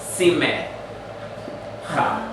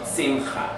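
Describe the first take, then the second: First: A short vowel is said after the m. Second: No vowel is said after the m. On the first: The speaker calls it wrong. "We don't say sime cha" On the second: The speaker calls it right. "We say sim or simcha"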